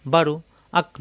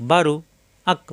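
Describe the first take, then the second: No difference in how they are said.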